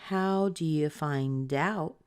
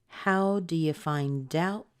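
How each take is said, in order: Both takes have the same delivery.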